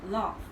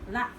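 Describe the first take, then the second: First: It is said in a southern English accent. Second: It is said in a northern English accent. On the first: "in the southern, they say laugh" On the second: "in the northern, they say laugh"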